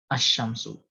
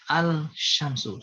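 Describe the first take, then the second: First: The L merges into the following sh sound. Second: The L is pronounced separately before sh. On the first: "lamnya dimasukin ke, atau dimasukkan ke huruf di depannya" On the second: "Kadang-kadang dibaca al-syamsu. Supaya pendengar itu tidak kebingungan"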